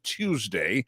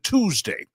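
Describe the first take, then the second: First: It begins with a clear 'tyoo' sound. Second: It begins with a plain 'too' sound. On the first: The speaker calls it right. "a clear pronunciation of Tuesday" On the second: The speaker calls it wrong. "as opposed to Tuesday. It's not T O O"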